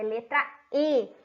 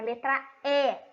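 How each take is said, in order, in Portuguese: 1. A vogal E é falada fechada. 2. A vogal E é falada aberta. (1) "é letra E, porque não tem acento agudo" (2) "não é letra E"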